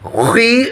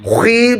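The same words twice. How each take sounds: First: The syllable sounds light and thin. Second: The syllable sounds overly heavy and thick. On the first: The speaker calls it right. "খ জের খি" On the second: The speaker calls it wrong. "খি বললে কিন্তু ওই যে অতিরিক্ত মোটা হয়ে যাবে"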